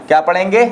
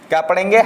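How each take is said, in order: Both takes have the same delivery.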